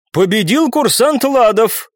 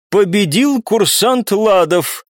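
First: High, slow, dumbfounded declaration; drawn-out, higher-pitched verdict from a taken-aback judge; stunned announcement. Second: High, very slow formal verdict; ringing, drawn-out referee's declaration; judge's announcement. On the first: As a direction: announce the winner in disbelief. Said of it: "оторопевшим голосом произнесла женщина". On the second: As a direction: proclaim the winner, stretching each word. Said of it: "прозвучал голос судьи". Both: A narrator's reading.

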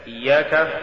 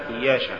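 First: Said in the usual way. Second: إياشا with sh where ك belongs; faulty reading of إياك as إياشا; mispronounced ك. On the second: Shown as a demonstration. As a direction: say إياشا, ش replacing k. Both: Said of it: "تقرأ لحنا".

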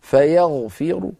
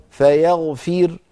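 First: Slow فيغفر with a heavy r and slight u; rawm, heavy ra. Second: Slow فيغفر ending on a thin, vowelless r; stop with sukun. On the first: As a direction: stop on فيغفر with only part of the final damma. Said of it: "عند الوقف بالروم أيضًا الراء مفخمة". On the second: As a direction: stop dead on the light ر of فيغفر. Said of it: "أما عند الوقف بالسكون". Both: Shown as a demonstration.

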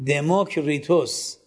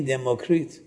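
First: دموکریتوس said in full with the Greek ending -وس; دموکریتوس, keep the final -os; Greek form of the name. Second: دموکریت said without the -وس ending; دموکریت, drop the final -os; Latin form of the name. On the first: (تلفظ یونانی دموکریتوس با پسوند وس) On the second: (تلفظ لاتین دموکریت بدون پسوند وس) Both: Shown as a demonstration. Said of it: "به لاتین میگین چی".

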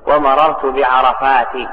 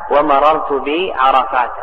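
First: بعرفات ending in plain "-ti"; kasra without tanween. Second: بعرفات ending in open "-ta"; fatha ending. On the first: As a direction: slowly say بعرفات as "bi-arafaati". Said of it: "بالكسر ولكن بدون تنوين". (بعرفات بالكسر بلا تنوين) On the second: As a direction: slowly say بعرفات as "bi-arafaata". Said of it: "ويجر أيضًا بالفتح". (بعرفات بالفتح بلا تنوين) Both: Shown as a demonstration.

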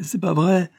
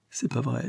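First: « c'est pas vrai » lancé plus haut et plus fort; ça lui échappe, plus haut; exclamation. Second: « C'est pas vrai » murmuré, plus doux; murmure. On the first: (Mimi honteuse s'exclame, plus haute et plus forte) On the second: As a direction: souffle ça pour soi. (Mimi cachée murmure, voix basse) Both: Acted. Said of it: "parfois elle murmure".

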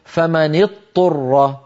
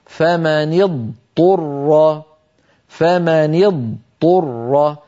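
First: فمن اضطر with ض merged into ط, said turra; wrong pronunciation. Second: فمن اضطر recited very slowly, ض sounded distinct before ط; correct pronunciation. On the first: Teacher showing students the wrong merged form. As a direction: demonstrate the mistake: اضطر as a doubled ta. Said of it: "لا يصح أن يقول القائل". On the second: Teacher modelling the correct pronunciation, very slowly. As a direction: keep the dad audible in اضطر, drawn out slowly. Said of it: "هكذا النطق الصحيح لهذه الكلمة". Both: Shown as a demonstration.

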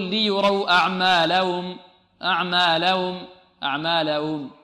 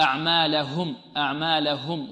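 First: أعمالهم with the final هم said lightly, the ha barely heard; student's weak ending. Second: أعمالهم with the ha pressed clearly and firmly; corrected ha. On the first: Teacher imitating a student who swallows the ha in أعمالهم. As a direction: let the ha in أعمالهم slip away, unstressed. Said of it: "لعل بعض الطلاب يقول". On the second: Teacher correcting the student with a firm clear ha. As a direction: press the ha in أعمالهم so it is plainly heard. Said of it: "لابد أن تضغط على الهاء". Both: Shown as a demonstration.

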